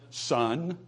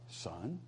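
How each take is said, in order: First: The word is said with a firm, meaningful inflection. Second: The word is said plainly, without special inflection. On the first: Listen carefully to what comes next. The speaker calls it right. "you have to have that vocal inflection. ... It's son. I want you to hear" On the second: It is just a simple address. The speaker calls it wrong. "That's not son"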